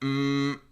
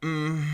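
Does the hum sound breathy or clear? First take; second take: clear; breathy. First: The hum stays clear after it starts. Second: The hum turns breathy right after it starts. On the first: "which holds on to a little bit more of a clear sound" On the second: "immediately going into the breathy one"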